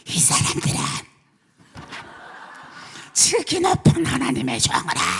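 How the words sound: It is read in a creepy, frightening tone.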